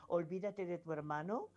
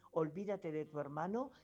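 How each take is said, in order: Both takes have the same delivery.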